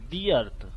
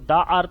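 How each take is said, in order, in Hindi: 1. 'The' को लंबे 'thee' स्वर के साथ बोला जाता है। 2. 'The' को छोटे 'thuh' स्वर के साथ बोला जाता है। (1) "दा को दी पढ़ेंगे" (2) "इसको द अर्थ नहीं पढ़ेंगे"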